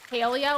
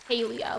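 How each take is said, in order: First: The first syllable sounds like 'pale'. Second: The first syllable sounds like 'pay'. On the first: "like as in like pale in the beginning" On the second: "like the word pay"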